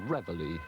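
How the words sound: It is said the American way.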